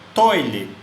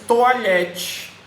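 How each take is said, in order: First: It is said with English vowels, like 'toy-let'. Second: It is said with French vowels, like 'twa-let'. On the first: "no inglês você não pronuncia toalhete, você pronuncia toilet" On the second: "Em francês, nós pronunciamos toalhete"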